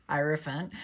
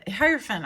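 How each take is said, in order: First: Laughing softly while saying it. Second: Said in the usual way. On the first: Real, not acted. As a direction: giggle as you say the word.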